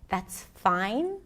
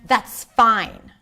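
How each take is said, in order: First: It sounds uncertain and confused. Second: It sounds clearly displeased and unhappy. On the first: The speaker does not know if it is fine. "Uncertain, confused, unsure" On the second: The speaker is upset about the situation. "I was definitely not happy"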